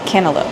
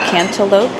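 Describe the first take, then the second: First: The word is said quickly, with syllables reduced. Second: The word is said carefully, with every syllable full.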